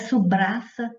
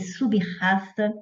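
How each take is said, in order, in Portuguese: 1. O b vai direto para o r seguinte. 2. O b fica separado do r. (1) "não é subraça" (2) "é sub-raça"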